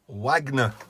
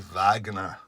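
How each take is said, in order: First: It is said with an English pronunciation. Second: It is said with a German pronunciation.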